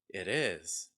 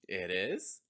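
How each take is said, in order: First: The pitch falls at the end. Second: The pitch rises at the end. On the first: "The second one is going to have falling intonation" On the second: "The first time is going to have rising intonation"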